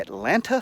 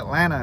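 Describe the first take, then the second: First: Both T sounds are clearly pronounced. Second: Only one T sound is pronounced. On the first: "the correct pronunciation" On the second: "the single T"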